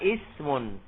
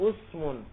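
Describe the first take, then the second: First: The word begins with an i vowel. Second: The word begins with a u vowel. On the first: This is the most common reading. The speaker calls it right. "Yang paling banyak dibaca ismun" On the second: This reading belongs to a weak dialect. The speaker calls it wrong. "boleh dibaca dhamma usmun, tapi lughatun dhaifah"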